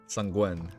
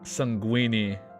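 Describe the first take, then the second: First: The word ends without an extra 'ee' vowel. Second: The word ends with an extra 'ee' vowel. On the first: The speaker calls it right. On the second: The speaker calls it wrong. "it wasn't sanguini"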